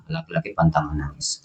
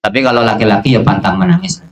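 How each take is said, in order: First: The maxim said again much softer, almost under the breath; hushed repeat. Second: Said in the usual way. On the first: Shown as a demonstration. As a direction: drop the voice right down to let it sink in.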